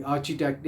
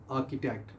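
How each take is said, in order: First: आर्किटेक्ट said with a ch sound, the wrong way; imitating the ch mistake in आर्किटेक्ट; wrong pronunciation demo. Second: आर्किटेक्ट said softly with a hard k; quiet model of आर्किटेक्ट with a k sound; correct pronunciation. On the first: Teacher shows students the ch mistake. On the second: Teacher gives students the right form, softly. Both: Shown as a demonstration. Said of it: "ये आर्किटेक्ट नहीं है".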